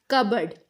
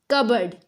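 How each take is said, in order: Both takes have the same delivery.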